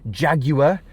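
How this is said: Jaguar is said with a British pronunciation. "as the British would say"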